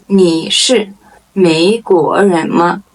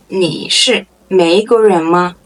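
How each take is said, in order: First: Deliberate, separated syllables; slow model question. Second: Said in the usual way. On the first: Shown as a demonstration. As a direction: ask it slowly for learners. Model question, slow first take.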